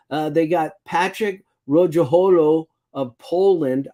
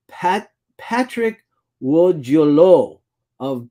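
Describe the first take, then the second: First: Said in the usual way. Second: "Patrick Wojolo" said slowly, trying a Polish W sound; attempt at Polish name. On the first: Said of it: "I can't speak Polish, people, but I'm gonna try". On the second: Shown as a demonstration. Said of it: "but I'm gonna try".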